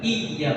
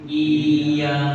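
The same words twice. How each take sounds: First: The syllable is pressed hard and forcefully. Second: The syllable is flat, level and lengthened. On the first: The speaker calls it wrong. "Dia bukan iya" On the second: The speaker calls it right. "tapi iya. Datar aja, tapi dia agak lamakan"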